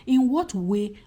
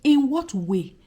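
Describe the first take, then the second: No difference in how they are said.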